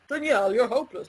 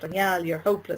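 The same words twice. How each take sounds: First: It is said in a funny, put-on voice. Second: It is said in a plain, normal voice. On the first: The criticism loses its power and seems laughable. "I imagined him speaking in a funny way" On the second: The inner critic sounds harsh and serious. "instead of saying something like"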